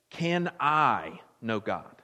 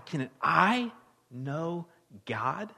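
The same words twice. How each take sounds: First: Said in the usual way. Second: Slow, with the weight on "I"; stress on I. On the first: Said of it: "Underline, maybe emphasize the word I". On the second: Shown as a demonstration. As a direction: lean on the word "I" in "Can I know God". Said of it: "maybe emphasize the word I".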